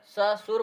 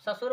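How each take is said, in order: First: ससुर broken into a long स, then सुर; split word. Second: Said in the usual way. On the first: Shown as a demonstration. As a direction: stretch the first syllable of ससुर apart from सुर. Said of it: "ससुर माने सुर रहित". (ससुर को "स... सुर" तोड़कर बोलें) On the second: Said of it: "ससुर माने एक प्रकार गाली".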